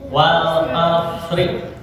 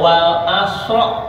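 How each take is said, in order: First: The word ends in the vowel i. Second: The word ends in the vowel a. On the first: The speaker calls it right. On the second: The speaker calls it wrong. "tidak juga"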